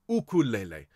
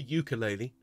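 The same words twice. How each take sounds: First: The word is said the Hawaiian way. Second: The word is said the common English way. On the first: The speaker calls it right. "the Hawaiian people pronounce this ukulele" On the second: The speaker calls it wrong. "Not a ukulele"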